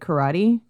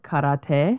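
First: It is said with an ordinary American pronunciation. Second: It is said with a Japanese-style pronunciation.

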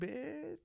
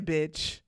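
First: The word is said in a light, friendly tone. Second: The word is said in a harsh, hostile tone. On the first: The speaker is not attacking the listener. "she didn't like come at me. She was really talking to me like" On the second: The speaker is attacking the listener. "not, yeah"

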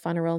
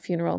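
First: The first syllable 'fun' is drawn out and emphasized. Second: The word is said plainly without extra emphasis. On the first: The ending should be made fun. The speaker calls it right. "I say the word funeral" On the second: The ending is a somber loss. The speaker calls it wrong. "not funeral"

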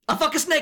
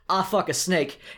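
First: It is said in an emotional put-on character voice. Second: It is said in the speaker's ordinary voice. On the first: The speaker calls it right. "You hear this?" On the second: The speaker calls it wrong. "I need a retake on that"

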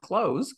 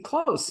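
First: The word ends with a buzzing z sound. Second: The word ends with a hissing s sound. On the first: The speaker calls it wrong. "not close" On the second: The speaker calls it right. "it's got to be close"

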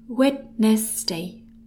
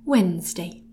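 First: The D and second E are both sounded. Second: The D and second E are both silent. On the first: The speaker calls it wrong. "Looks like Wednesday" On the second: The speaker calls it right. "let's remove the D and the second E"

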